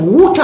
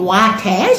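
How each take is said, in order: First: "water" with a drawn-out oo, like "wooter"; affected "water". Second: Said in the usual way. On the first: Shown as a demonstration. Auntie showing how granddaughter said it, affected "water". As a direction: put on a fake-accent "water", oo for the vowel. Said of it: "she said water". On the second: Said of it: "Instead of saying water".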